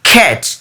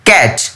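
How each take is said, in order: First: The first k sound has a strong puff of air. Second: The first k sound has no puff of air. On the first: The speaker calls it right. "এটার উচ্চারণটা হবে" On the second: The speaker calls it wrong. "না, এটা ভুল উচ্চারণ"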